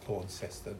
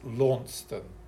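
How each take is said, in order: First: The name is said the Australian way. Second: The name is said the English way. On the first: The speaker calls it wrong. "the Aussies always pronounce it wrong. It's not Launceston" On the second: The speaker calls it right. "That's how you pronounce it in England"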